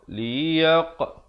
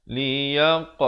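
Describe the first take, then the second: The two takes are said the same way.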